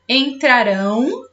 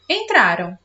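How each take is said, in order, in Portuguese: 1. A palavra termina com o som de 'ão' completo. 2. A palavra termina com o som de 'an'. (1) "a minha pronúncia fica ão" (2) "eu não falo ão, eu falo an"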